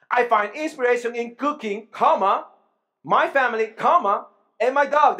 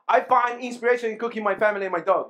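First: "cooking", "my family" and "my dog" as separate items, loud, each with a pause; commas spoken and paused. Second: "I find inspiration in cooking my family and my dog" rushed with no breaks; run together fast. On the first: Preacher showing the congregation how commas fix the sentence. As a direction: break the list at every comma. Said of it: "let's use the comma". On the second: Preacher reading the comma-less sentence to the church, rushed. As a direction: rattle it off without a single pause. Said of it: "Without comma". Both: Shown as a demonstration.

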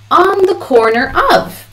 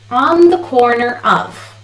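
The two takes are said the same way.

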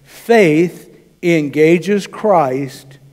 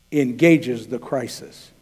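First: Faith engages Christ drawn out very slowly; weighty sermon point, word by word; slow emphatic point. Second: "engages the crisis" slowed and dropped softer; slow, softer point. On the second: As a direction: lean on "engages", let "the crisis" fall away. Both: Shown as a demonstration. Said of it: "here's the second point".

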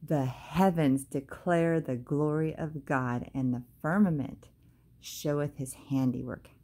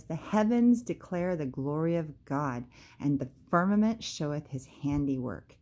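First: "The heavens declare the glory of God" read slowly, each word weighed; slow down and let every word of the verse land; slow, deliberate scripture reading. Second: Said in the usual way. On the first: Shown as a demonstration. Reading the psalm slowly back to her viewers. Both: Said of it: "let's just stop right there".

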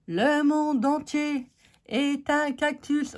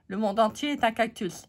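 First: Higher, slow, grandly declaimed; mock proclamation. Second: Said in the usual way. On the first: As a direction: pronounce it like a mock-solemn proverb. Mock-grand proverb on cactus ink.

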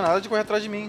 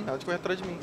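First: Said in the usual way. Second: The same words again, softer, under the breath; quieter repeat. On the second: Real, not acted. Player repeating the warning to himself, softly. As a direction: mutter it to yourself the second time.

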